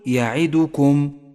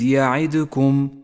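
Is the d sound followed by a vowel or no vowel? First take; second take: vowel; no vowel. First: The d sound is followed by a u vowel. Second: The d sound is followed by no vowel. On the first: The speaker calls it right. "فالدال مضمومة وليست ساكنة، قل يعدكم" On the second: The speaker calls it wrong. "ولا تقل وإذ يعدكم، فهو خطأ شائع"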